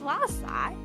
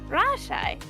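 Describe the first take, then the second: First: The first consonant sounds like an L. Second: The first consonant sounds like an R. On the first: "Not la"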